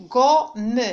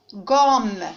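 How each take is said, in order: First: "gomme" broken into go-mme; two-syllable "gomme" with the final e sounded; split into syllables. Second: Said in the usual way. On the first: Shown as a demonstration. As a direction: say "gomme" in two separate beats, go, then me. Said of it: "je vais les découper". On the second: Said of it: "Je vais les prononcer".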